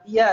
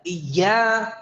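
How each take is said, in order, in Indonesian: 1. Bunyi ya diucapkan santai, seperti dalam percakapan sehari-hari. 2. Bunyi ya dikeluarkan dengan tenaga yang berlebihan. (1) "seperti kita bilang iya" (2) "nah ini berlebihan"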